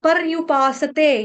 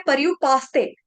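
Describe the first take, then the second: First: "पर्युपासते" slowly, with a full sa before te. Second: "पर्युपासते" quicker, as par-yu-paas-te; common mispronunciation. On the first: Teacher modelling the right form, slow "पर्युपासते" with full sa. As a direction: sound par-yu-paa-sa-te syllable by syllable. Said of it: "स पूर्ण". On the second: Teacher showing the mistake, "पर्युपासते" with half s. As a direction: swallow the vowel after s, paas-te. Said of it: "यहाँ पर गलती से". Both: Shown as a demonstration.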